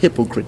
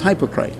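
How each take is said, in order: First: It is said with the modern English pronunciation. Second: It is said with the original Greek pronunciation. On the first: This is how the word is said today. "we pronounce it as hypocrite today" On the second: This is the word's original form. "but it is hypocrite"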